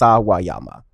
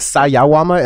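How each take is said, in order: First: The second syllable is wa, the third ya. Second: The second syllable is ya, the third wa. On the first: The speaker calls it right. "it's [name]" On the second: The speaker calls it wrong. "You're saying Sayawama"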